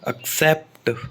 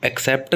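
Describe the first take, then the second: First: The stress is on the second syllable. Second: The stress is on the first syllable. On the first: The speaker calls it right. "सेप्ट पर stress आएगा" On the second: The speaker calls it wrong. "Accept नहीं होता"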